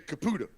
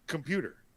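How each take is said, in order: First: The word is said with a Bronx dialect pronunciation. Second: The word is said with standard American pronunciation. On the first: "They say caputa. That's what they say" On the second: "they don't say computer"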